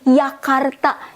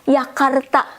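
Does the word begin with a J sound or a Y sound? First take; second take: Y sound; Y sound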